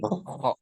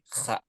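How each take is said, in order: First: The kha is said with lips slightly rounded. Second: The kha is said with lips spread wide. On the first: The speaker calls it right. "agak manyun eh, manyun sedikit" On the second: The speaker calls it wrong. "jangan dilebarkan eh, mulutnya"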